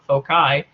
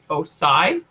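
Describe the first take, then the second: First: The middle consonant is a hard k sound. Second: The middle consonant is a soft s sound. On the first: This is how it is said in the UK. "with a hard K sound" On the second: This is how it is said in the US. "in the U S, it's common to say"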